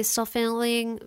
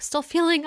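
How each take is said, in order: First: "feeling" garbled to sound like "fenling"; tongue trips on "feeling", coming out "fanling"; slurred slip of the tongue. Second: Said in the usual way. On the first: Real, not acted. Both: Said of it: "jeez, I cannot talk".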